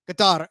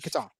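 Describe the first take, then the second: First: Qatar is pronounced the native way. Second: Qatar is pronounced the common English way. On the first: "So that'll be the one time you hear it right" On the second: "like they they're going to say it on the on the broadcast"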